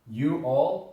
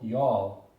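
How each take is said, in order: First: Both words are said fully and separately. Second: The words are run together into one syllable.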